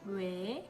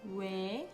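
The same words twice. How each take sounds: No difference in how they are said.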